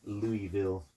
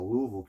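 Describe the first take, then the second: First: The name is said clearly, every syllable pronounced. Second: The name is said in a mumbled, reduced way. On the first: The speaker calls it wrong. "but it wasn't Louisville" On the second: The speaker calls it right. "Notice how I said it right"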